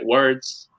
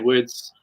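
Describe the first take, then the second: First: The R sound is clearly pronounced. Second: The R sound is dropped. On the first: The speaker calls it right. "you pronounce the R right" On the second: The speaker calls it wrong. "But in New Zealand, you just say words"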